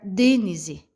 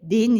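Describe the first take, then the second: First: The stress is on the first syllable. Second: The stress is on the last syllable. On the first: "Se eu fosse pronunciar o D mais forte" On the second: "Se eu fosse jogar a sílaba mais forte no C"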